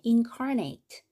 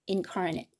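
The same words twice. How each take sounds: First: The last syllable is full, sounding like 'nate'. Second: The last syllable is reduced, sounding like 'nit'. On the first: It is a transitive verb. "여기를 ate로 발음하면 타동사가 된다" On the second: It is an adjective placed after a noun. "incarnate 이렇게 발음하면 형용사고"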